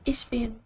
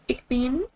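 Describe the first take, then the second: First: It is said in standard German. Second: It is said in Berlin dialect. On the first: "like the standard German, we say like ich bin" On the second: "in Berlin, they say like ich"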